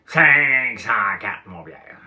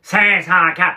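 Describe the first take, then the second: First: Loud, drawn out very slowly; big voice again. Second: Booming, much higher and louder; big voice. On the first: Speaker re-imitating Claude Cloutier's booming voice. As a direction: stretch Cinq cent quatre slow and loud. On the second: Claude Cloutier booming Cinq cent quatre to Pierre. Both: Retold or imitated. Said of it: "il parlait avec une grosse voix".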